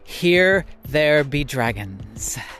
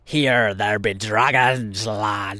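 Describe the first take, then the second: First: It is said in his normal voice. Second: It is said in a put-on pirate voice.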